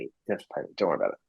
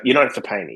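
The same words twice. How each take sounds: First: "You don't have to pay me" said much softer and lower, trailing off; quietly brushing off the payment; softer reassurance. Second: Said in the usual way. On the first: Retold or imitated. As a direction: hush it down, waving it off gently. Retold reassurance, said twice.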